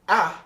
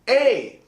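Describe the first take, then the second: First: The vowel is said as a short sound. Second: The vowel is said long, like its letter name. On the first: The speaker calls it wrong. "It's not A" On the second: The speaker calls it right. "it's A. The long sounds sound just like the alphabet"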